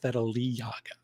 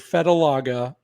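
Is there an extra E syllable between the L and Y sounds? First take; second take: yes; no. First: An extra E syllable sits between L and Y. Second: The L goes straight into the Y sound. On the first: The speaker calls it right. "but it's Fedeliaga. There's an extra syllable in there" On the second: The speaker calls it wrong. "I wanted to say"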